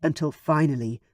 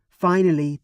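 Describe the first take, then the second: First: Said in the usual way. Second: Finally said louder and leaning in with a falling finish; emphatic repeat. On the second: A narrator's reading. Narrator stressing the long wait, finally punched. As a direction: hit the repeated finally harder.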